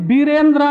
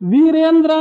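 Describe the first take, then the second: First: The name begins with a b sound. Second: The name begins with a v sound.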